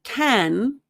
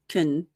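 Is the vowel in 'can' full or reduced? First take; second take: full; reduced. First: The word is said with a full vowel. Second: The vowel is almost gone, like 'kn'. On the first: The speaker calls it wrong. "notice here it's not can" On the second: The speaker calls it right. "Americans use the reduced form"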